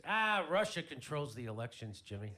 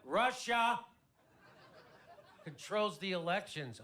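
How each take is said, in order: First: Loud, dismissive grumble, lightly acted; mock-upset retort, loud start; upset brother. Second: Loud, high mock disbelief, broken by a pause; hammed-up astonished repeat; incredulous echo. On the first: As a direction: imitate a brother brushing off the question. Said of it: "My brother's all upset about the election". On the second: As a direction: throw the claim back, RUSSIA shouted high. Incredulous echo of brother's claim.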